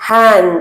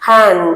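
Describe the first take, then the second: No difference in how they are said.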